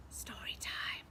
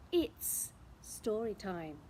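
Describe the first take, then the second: First: Whispered story time. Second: Said in the usual way. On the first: Acted. Storyteller whispering to children that it's story time. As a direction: breathe it out secretively.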